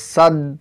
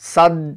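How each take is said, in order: No difference in how they are said.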